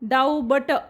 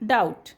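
First: A b sound is pronounced in the middle. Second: No b sound is pronounced at all. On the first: The speaker calls it wrong. "डाऊ बट असं नाही म्हणत" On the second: The speaker calls it right. "डाऊट म्हणतो आपण"

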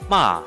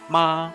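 First: The pitch falls sharply downward. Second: The pitch stays high and level. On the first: "It's like dropping" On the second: "the first one is like the high straight ma"

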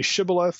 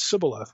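First: The word begins with an sh sound. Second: The word begins with an s sound. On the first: The speaker belongs to the home region. The speaker calls it right. "can you say Shibboleth?" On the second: The speaker comes from the rival region. The speaker calls it wrong. "it's a dialectical difference in the pronunciation"

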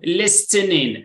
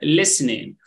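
First: The t sound is pronounced in the middle. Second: The t sound is silent in the middle. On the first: The speaker calls it wrong. "لا نقول list, listening" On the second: The speaker calls it right. "We don't pronounce T"

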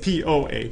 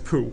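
First: It is said as the separate letters P-O-H. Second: It is said as a single word, poo. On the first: The speaker calls it right. "but it's POH" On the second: The speaker calls it wrong. "you don't pronounce that as poo"

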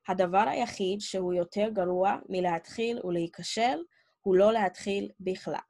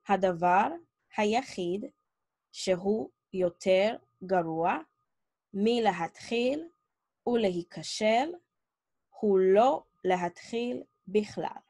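First: It is read at a regular pace. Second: It is read at a slower pace.

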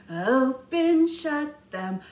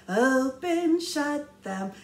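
The two takes are said the same way.

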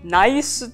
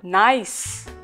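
First: The s is followed by a Japanese su vowel. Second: It ends in a bare s with no vowel. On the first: The speaker calls it wrong. "日本語的に言うと" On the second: The speaker calls it right. "こういうふうに発音してもらえればより伝わる英語になります"

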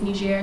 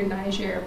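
First: The name has a French-style pronunciation. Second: The name has an English-style pronunciation. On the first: This is how locals say the name. "the way that Nigerians would pronounce it is Niger" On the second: This is how English speakers say the name. "Sometimes you will hear Niger, but the English version"

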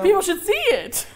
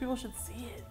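First: It is said in a normal voice. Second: It is said in a creepy voice.

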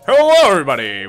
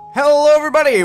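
First: It is said in a put-on deep voice. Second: It is said in his normal voice.

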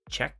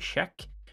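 First: It starts with an English ch sound. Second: It starts with a Swedish-style non-ch sound. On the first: "when you say check" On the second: "we say check"

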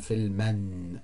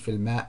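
First: The word ends in a vowel plus n. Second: The word ends in a bare vowel. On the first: The speaker calls it right. "sondern Filmen" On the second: The speaker calls it wrong. "dann ist es nicht Filmer"

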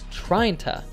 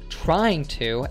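First: The g is dropped and 'to' becomes 'ta'. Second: Both words are said fully, with the g sound. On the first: "So we would say tryin ta" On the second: "He says trying to as trina"

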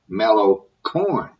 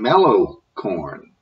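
First: The stress falls on the word 'corn'. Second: The stress falls on the word 'mellow'. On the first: The speaker calls it right. "instead of mellow corn" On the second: The speaker calls it wrong. "why is the emphasis on the first word in mellow corn"

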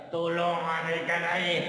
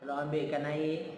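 First: It is said in a raised voice. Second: It is said softly and gently.

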